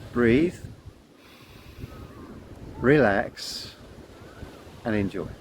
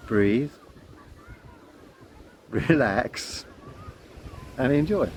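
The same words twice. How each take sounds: First: Slow mantra, each word set apart by long pauses; calm mantra. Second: Slow mantra with long pauses between words; calm mantra. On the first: Guiding children in a slow, calm mantra. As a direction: breathe it out slowly like a calming chant. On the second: Repeating the children's mantra, slow and calm. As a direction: let each word settle, unhurried. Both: Shown as a demonstration. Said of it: "the mantra I give to the children".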